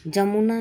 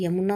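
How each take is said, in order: First: जमुना starting with j, not y; wrong pronunciation. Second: Said in the usual way. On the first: Shown as a demonstration. Teacher rejecting a mistake, जमुना said with initial j. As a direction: open जमुना on a "ja". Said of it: "नहीं होता है". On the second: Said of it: "होता है".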